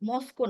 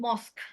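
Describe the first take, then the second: First: The word ends with an added o vowel. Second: The word ends sharply on the k sound. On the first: The speaker calls it wrong. "মস্কো না" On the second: The speaker calls it right. "উচ্চারণটা হচ্ছে মস্ক"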